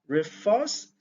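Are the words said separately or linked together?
linked. The two words are linked together.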